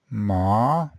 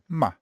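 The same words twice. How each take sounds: First: The pitch rises from middle to high. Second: It is short and clipped with no pitch movement. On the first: "second tone" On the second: "the neutral tone"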